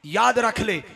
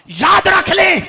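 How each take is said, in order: First: Said in the usual way. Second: High, loud preacher's shout; commanding shout. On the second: Real, not acted. Preacher warning the congregation to remember, shouting. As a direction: call it out forcefully to a crowd.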